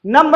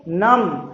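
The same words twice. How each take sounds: First: "नम्ब" with the b sounded; "नम्ब" ending on a clear b; "नम्ब" said wrongly as numb-b; wrong pronunciation. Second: "नम" as num, silent b; "नम" with no b at the end; correct pronunciation. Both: Shown as a demonstration. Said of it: "नम्ब नहीं".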